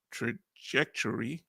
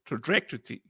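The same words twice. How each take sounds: First: Trajectory slowly as "truh-JEK-tuh-ree"; trajectory broken up slowly, with a clear J; careful pronunciation. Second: Trajectory garbled as "truh-DREK-tuh-tee"; stumbled pronunciation. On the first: Shown as a demonstration. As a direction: sound out trajectory in careful, separated syllables. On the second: Real, not acted. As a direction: trip quickly over trajectory, swapping J for DR. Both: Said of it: "let me say trajectory".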